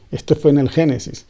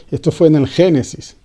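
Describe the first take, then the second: No difference in how they are said.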